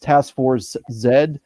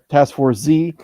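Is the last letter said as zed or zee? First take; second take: zed; zee. First: The letter Z is said as zed. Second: The letter Z is said as zee.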